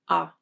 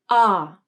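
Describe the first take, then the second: First: The pitch is low, flat and quick. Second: The pitch glides up and then down. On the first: "the pitch of the voice is lower and flatter, and the vowel is said faster" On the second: "the pitch of the voice glides up and then down"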